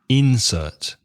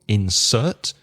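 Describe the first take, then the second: First: The stress is on the first syllable. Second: The stress is on the second syllable. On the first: It is used as a noun. "When it's a noun, you stress the first syllable" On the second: It is used as a verb. "When it's a verb, you stress the second syllable"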